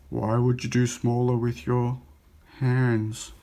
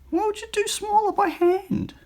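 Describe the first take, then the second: First: It is said in a normal voice. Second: It is said in a high-pitched voice.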